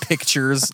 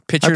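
First: The k sound before the t is pronounced. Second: The k sound before the t is dropped. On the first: "like taking a picture" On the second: "like a pitcher of water"

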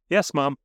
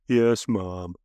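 First: It sounds willing and accepting. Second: It sounds reluctant and somber.

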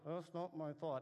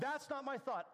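First: The phrase is spoken very softly. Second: The phrase is shouted out loudly. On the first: Others nearby should not hear it. "I say it really softly" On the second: Nobody is around to hear it. "I'll shout it out"

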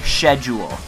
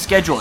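First: The word begins with an 'sh' sound. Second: The word begins with an 'sk' sound. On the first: The speaker calls it wrong. "People who say schedule" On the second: The speaker calls it right. "The word is fucking schedule. It's the word shul? No, it's fucking school"

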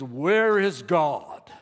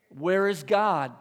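First: It is asked in a booming preacher voice. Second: It is asked in a plain, normal voice.

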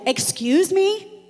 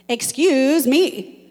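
First: It sounds offended, as if insulted. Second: It sounds annoyed with somebody.

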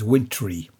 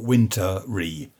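First: The word is said with two syllables. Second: The word is said with three syllables. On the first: The speaker calls it right. "It's wintry, wintry" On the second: The speaker calls it wrong. "not wintery"

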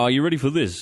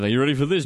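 First: It is said in a put-on salesman voice. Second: It is said in his normal voice.

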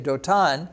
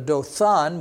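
First: The middle consonant is not a th sound. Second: The middle consonant is a th sound. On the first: This is the Hebrew way of saying the name. "we don't have the TH sound in Hebrew, so we say" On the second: This is the English way of saying the name. "instead of a Dothan"

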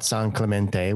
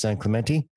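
First: The name is said with a Spanish-style pronunciation. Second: The name is said with an English-style pronunciation. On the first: The speaker is not from the area. The speaker calls it wrong. "It's not San Clemente. We don't actually pronounce it with the Spanish" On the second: The speaker is from the area. The speaker calls it right. "For those of you that don't live in California, it's San Clemente"

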